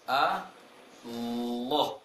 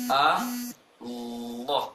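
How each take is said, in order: No difference in how they are said.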